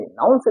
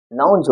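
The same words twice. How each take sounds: First: "नाउन्स" with a hissed s at the end; wrong s ending. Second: "नाउन्स" ending in a voiced z or j sound; correct z ending. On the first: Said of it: "नाउन्स नहीं होगा". ("नाउन्स" के अंत में स की ध्वनि) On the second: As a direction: say "नाउन्स" with ज for the final s. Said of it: "ज पढ़ा जाएगा". ("नाउन्स" के अंत में ज की ध्वनि) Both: Shown as a demonstration.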